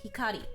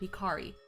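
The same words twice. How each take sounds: First: The R is a light, quick tap. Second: The R is strong and prominent. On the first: "like the way I just said it ... It's a very just bit, bit kind of thing" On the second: "the R is more prominent there"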